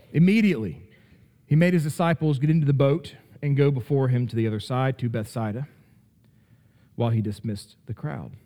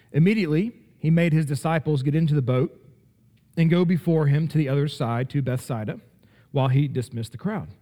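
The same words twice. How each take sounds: The two takes are said the same way.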